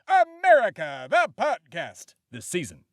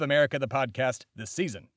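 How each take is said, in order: First: It is shouted loudly. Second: It is said at normal volume.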